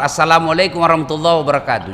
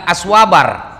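First: Said in the usual way. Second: Whole greeting collapsed into "Aswabar"; garbled short greeting. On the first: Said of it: "Jangan mau rubah-rubah itu salam". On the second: Retold or imitated. Preacher mocks a worse shortcut, greeting squashed into "Aswabar". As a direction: say "Aswabar" as three quick syllables standing for the full salam. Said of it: "Ada lagi yang lebih parah".

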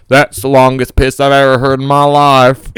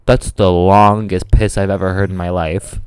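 First: Put-on Southern accent. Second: Low, slow impressed guy voice; stranger in awe. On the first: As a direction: play him as an earnest Southern good ol' boy. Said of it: "that was a character choice that I added". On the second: Retold or imitated. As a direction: draw it out low, like an amazed dude. Retells stranger's remark at the sink.

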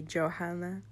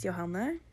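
First: Johanna said the English way, jo-HAN-uh; English pronunciation. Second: Johanne said the Norwegian way, yo-HAH-neh; Norwegian pronunciation. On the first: Telling English listeners her name, English pronunciation. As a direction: anglicize Johanna with a hard j. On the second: Introducing herself on her podcast, Norwegian pronunciation. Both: Shown as a demonstration. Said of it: "or if you would say it in English".

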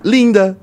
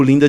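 First: "linda" alto e agudo; em caps lock. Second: Said in the usual way. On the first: Shown as a demonstration. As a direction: exclame "linda" como em maiúsculas. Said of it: "é caps lock". ("linda" gritado, em caixa alta) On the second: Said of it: "mandei normal".

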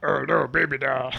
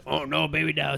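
First: Killer Croc voice. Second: Lower, correcting croc voice; Killer Croc voice. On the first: Acted. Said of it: "I don't think it was". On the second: Shown as a demonstration. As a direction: show how the line went. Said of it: "Say that".

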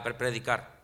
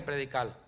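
First: Said in the usual way. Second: Predicar with the final r said as an l, Puerto Rican style; Puerto Rican slip. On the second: Shown as a demonstration. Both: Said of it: "Estoy hablando como los puertorriqueños".

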